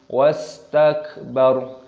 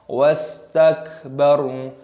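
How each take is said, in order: The two takes are said the same way.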